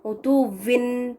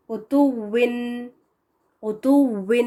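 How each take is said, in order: First: عتوٍ with a v-like waw, the wrong way; mistake demo. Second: عتوٍ with a rounded final w; correct pronunciation. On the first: Teacher shows the common mistake in عتوٍ. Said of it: "اس کی mistake کیا ہوتی ہے". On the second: Teacher shows correct final waw in عتوٍ. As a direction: end عتوٍ on a lip-rounded w. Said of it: "آخر میں جب آتا ہے واو". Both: Shown as a demonstration.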